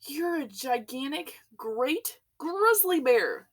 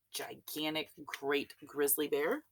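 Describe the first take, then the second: First: Higher, louder, slow and drawn out; shout. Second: Said in the usual way. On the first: A narrator's reading. Chief of police confronting the bear, slow shout. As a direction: hammer each word as an angry charge. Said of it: "shouted the chief of police". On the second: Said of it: "It wasn't his fault".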